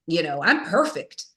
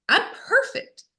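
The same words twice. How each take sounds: First: Said in the usual way. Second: High mocking sing-song; high, sarcastic little voice. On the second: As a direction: parody your own smugness. Mocks her old self-image.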